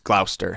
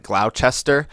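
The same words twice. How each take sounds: First: The middle syllable is dropped, giving two syllables. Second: Every syllable is pronounced as it is spelled. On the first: The speaker calls it right. "but it's Gloucester. That's how you pronounce it" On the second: The speaker calls it wrong. "it sounds like it looks like Gloucester"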